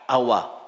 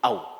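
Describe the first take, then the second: First: The w is followed by a short a. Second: The w has no vowel after it. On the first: "dengan fathah awa" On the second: "disukun au"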